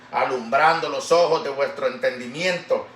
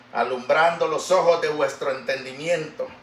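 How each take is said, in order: The two takes are said the same way.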